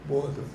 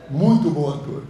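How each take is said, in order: First: Said in the usual way. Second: "Muito" hit loud and falling; stress on muito. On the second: Real, not acted. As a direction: push "Muito" hard, then drop.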